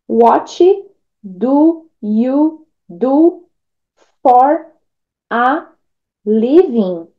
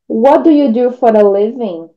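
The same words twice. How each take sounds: First: Each word is said separately, without linking. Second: The words run together, linking one sound to the next. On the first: The speaker calls it wrong. "se você lesse palavra por palavra sem conectar um som com o outro" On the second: The speaker calls it right. "Você vai falar"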